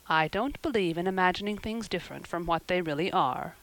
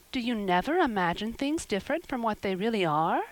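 First: Understated matter-of-fact retort. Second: Put-on mildly amazed child's question; wide-eyed wonder. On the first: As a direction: answer firmly in an even, adult voice. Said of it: "retorted Marilla". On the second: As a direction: ask in innocent disbelief. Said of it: "wide-eyed". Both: A narrator's reading.

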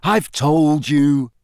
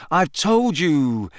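First: Slow, heavy, louder and dull; slow, leaden insistence; dull repetition. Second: Higher, slow "told you"; mildly exasperated, pitched up; weary exasperation. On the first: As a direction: repeat it wearily, drawing out each word. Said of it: "Harry repeated dully". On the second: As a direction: draw it out with mild impatience. Harry pressed to repeat himself. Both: A narrator's reading.

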